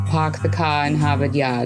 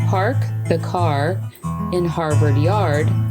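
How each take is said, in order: First: The R sounds after vowels are dropped. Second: The R sounds after vowels are clearly pronounced. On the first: "in Boston they would say" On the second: "I would say"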